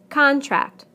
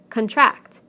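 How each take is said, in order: First: The stress is on the first syllable. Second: The stress is on the second syllable. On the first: It is a noun. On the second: It is a verb.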